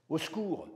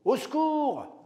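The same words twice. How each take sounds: First: Said in the usual way. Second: Much higher, much louder yell for help; shouted cry for help. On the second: Retold or imitated. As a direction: scream it like calling for rescue in a bar. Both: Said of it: "c'est ce que j'ai crié".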